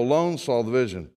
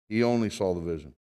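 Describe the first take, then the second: First: Alone leaned on, then a quick fall; stress on alone. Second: Only lifted and pressed, said quickly and softly; stress on only. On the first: Preacher reading Daniel to the church, alone stressed. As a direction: press the word alone as you read. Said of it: "Notice, he only saw the vision". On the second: Preacher explaining the verse to the congregation, only stressed. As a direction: point at the word only. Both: Shown as a demonstration.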